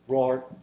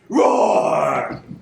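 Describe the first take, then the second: First: The roar is soft and gentle. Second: The roar is loud and fierce. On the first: "I shall roar as gently as a dove" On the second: "I will roar that will do any man's heart good to hear"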